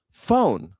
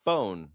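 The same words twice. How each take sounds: First: Phone drawn out Southern style; mock Southern phone. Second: Said in the usual way. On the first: Shown as a demonstration. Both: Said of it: "people in the South can't say phone".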